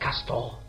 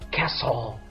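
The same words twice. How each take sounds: First: The t sound is pronounced. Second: The t sound is silent. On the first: The speaker calls it wrong. "not castle" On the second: The speaker calls it right. "The silent letter is T. Excellent. So the right pronunciation of this word is castle"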